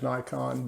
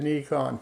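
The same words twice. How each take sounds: First: It is pronounced the usual American way. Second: It is pronounced closer to the Japanese way. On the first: The speaker calls it wrong. "the American version of it" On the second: The speaker calls it right. "That's closer to the Japanese pronunciation of the word"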